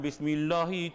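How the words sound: It is said in a northern Malaysian accent.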